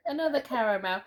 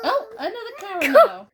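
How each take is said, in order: First: Said in the usual way. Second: High, loud laughing exclamation; laughing surprise. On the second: Real, not acted. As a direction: burst out laughing at it.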